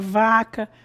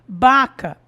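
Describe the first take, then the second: First: The word begins with a v sound. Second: The word begins with a b sound. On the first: The speaker calls it right. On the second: The speaker calls it wrong.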